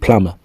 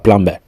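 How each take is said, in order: First: The b sound is silent. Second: The b sound is pronounced. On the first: The speaker calls it right. "on dit plumber" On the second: The speaker calls it wrong. "on dit pas plumber"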